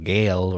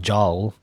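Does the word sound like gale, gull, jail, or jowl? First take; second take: gale; jowl. First: It starts with a hard g and rhymes with pale. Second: It starts with a j sound and rhymes with howl. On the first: "or gale" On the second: "or I don't know, jowl"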